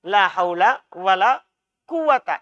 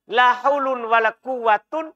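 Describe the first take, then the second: First: The nouns end with an -a sound. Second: The nouns end with an -un sound. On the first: This is the reading people usually know. "yang kita biasa baca" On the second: This is a permitted but less familiar reading. "Boleh kita baca, la haulun wala quwatun illa billah, boleh"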